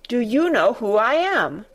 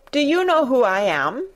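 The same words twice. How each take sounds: First: Firm falling demand, more haughty; more imperious demand. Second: Imperious demand. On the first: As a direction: press the question down harder. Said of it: "demanded Colin still more imperiously". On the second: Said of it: "demanded the Rajah". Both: Acted.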